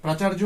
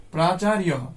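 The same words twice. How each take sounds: First: প্রাচার্য the Bengali way, "praa-chaar-jo"; Bengali-style প্রাচার্য, no final "ha"; Bengali pronunciation. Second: প্রাচার্যঃ as praa-chaa-ri-ya-ha; Sanskrit-style প্রাচার্যঃ, final visarga sounded; Sanskrit pronunciation. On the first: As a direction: say প্রাচার্য with a "j" sound, ending "-jo". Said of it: "Bangla উচ্চারণ". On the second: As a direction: say প্রাচার্যঃ with "ri-ya" instead of "j", then "ha". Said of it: "সংস্কৃত উচ্চারণ". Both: Shown as a demonstration.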